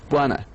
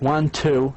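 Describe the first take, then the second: First: The words run together into one reduced word. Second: Both words are said fully and separately.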